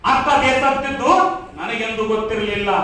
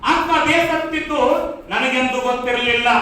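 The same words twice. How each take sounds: The two takes are said the same way.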